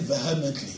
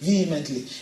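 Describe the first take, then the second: First: The word is said in a heavy foreign accent. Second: The word is said in a plain accent. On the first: "he said vehemently" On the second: "he was going to pronounce this word vehemently"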